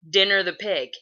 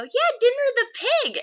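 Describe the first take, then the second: First: Lightly voiced dad, a bit loud; dad echoing. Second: Put-on very high, loud child voice; eager little kid. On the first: Dad repeating the girl's question to his son, lightly imitated. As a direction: repeat it at normal pitch as the dad. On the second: Little girl prompting the neighbors about their pig, eager squeal. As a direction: pipe up like an insistent small child.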